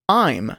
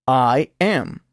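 First: The words are joined into one syllable. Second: The two words are said in full. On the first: "luego contraído con el pronombre personal" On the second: "oirá el verbo sin contracción"

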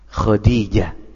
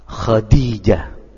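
The two takes are said the same way.

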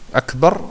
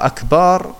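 First: The final A vowel is short. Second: The final A vowel is drawn out long. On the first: It means greater. The speaker calls it right. "Akbar bedeutet größer" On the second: It means drums. The speaker calls it wrong. "Aber Akbar ist der Plural von Kabar"

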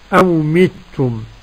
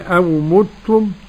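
First: The m is followed by an i vowel. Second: The m is followed by an u vowel. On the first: "وكسر الميم" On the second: "ضم الميم"

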